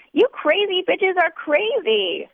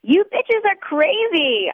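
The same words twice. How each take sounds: First: High, slow slurring wail; drunken cry. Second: Put-on high, slow drunken wail up at the ceiling; drunken cry. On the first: Drunk narrator repeating herself to the ceiling, high slow wail. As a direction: drag it out, sloppy and drunk. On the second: Drunk woman crying up at the tin ceiling, slow high wail. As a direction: howl it out, sloppy and slow. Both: A narrator's reading. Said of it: "I cry to the tin ceiling".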